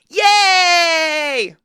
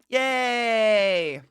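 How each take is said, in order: First: It is said with more excitement. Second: It is said with little excitement.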